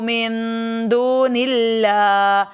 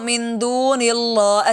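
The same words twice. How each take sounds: First: The 'l' in Allah sounds thin and light. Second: The 'l' in Allah sounds thick and heavy. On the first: The speaker calls it right. "लफ्ज़ अल्लाह मोटा नहीं होगा" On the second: The speaker calls it wrong. "इसको मिन दूनिल्लाह ऐसे नहीं पढ़ सकते"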